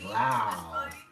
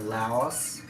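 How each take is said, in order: First: The word ends without any S sound. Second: The word ends with an audible S sound. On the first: "the S is silent, like Lao" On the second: "I'm used to pronouncing it as Laos"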